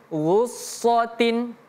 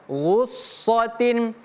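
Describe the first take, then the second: No difference in how they are said.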